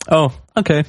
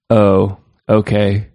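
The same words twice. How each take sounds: First: Higher-pitched, questioning take on a dismissive tweet; small, high, put-on voice; alternative reading. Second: Slow, deadpan dismissive tweet reading; dry, drawn-out mock acceptance; sarcastic. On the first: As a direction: lift it up into a rising question. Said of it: "Or was it more like". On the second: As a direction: read it slowly, drowning in sarcasm. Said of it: "the sarcasm, we're drowning in it".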